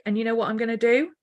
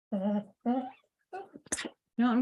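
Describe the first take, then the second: First: Said in the usual way. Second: Slow conspiratorial whisper; playful whisper. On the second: Acted. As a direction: lean in and whisper the secret plan. Teasing her drawing plan.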